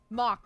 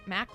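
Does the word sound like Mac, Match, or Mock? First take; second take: Mock; Mac. First: It rhymes with 'hawk'. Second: It rhymes with 'back'. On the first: "Mock, like hawk" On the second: "Mac, like Big Mac?"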